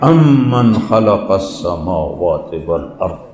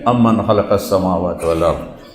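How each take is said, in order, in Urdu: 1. یہ پُروقار اور باوقار لہجے میں کہا گیا ہے۔ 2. یہ سادہ اور سپاٹ لہجے میں کہا گیا ہے۔ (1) "اس میں تکبر ہے" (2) "ایسا نہیں ہے"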